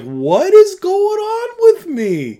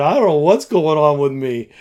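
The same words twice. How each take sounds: First: Very high, drawn-out, loud squeal; imitating busting up. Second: Said in the usual way. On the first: Youth leader retelling how he couldn't stop laughing, high helpless squeal. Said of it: "I just started busting up". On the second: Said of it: "I chuckled a little bit".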